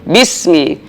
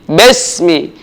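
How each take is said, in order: First: The first vowel is a full, clear 'i'. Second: The first vowel sounds like a lax 'e'. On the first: The speaker calls it right. "Rahang dibuka sehingga sempurna harokat kasrah kita seperti orang tersenyum" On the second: The speaker calls it wrong. "harokat kasrah tidak sempurna menjadi besmi"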